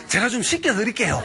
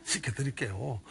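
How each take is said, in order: First: Half-laughing, slightly higher 씻겨드릴게요; amused shepherd offering to scrub God. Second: 씻겨드릴게요 said softer and lower; quietly repeating the odd offer. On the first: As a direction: chuckle through 씻겨드릴게요 with a lift. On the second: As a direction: drop to a soft aside on 씻겨드릴게요. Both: Retold or imitated. Shepherd's prayer, repeated.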